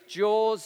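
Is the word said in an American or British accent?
British. The word is said in a British accent.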